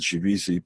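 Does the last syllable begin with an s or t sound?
s. The last syllable begins with an s sound. "people of European descent pronounce it Shivisi"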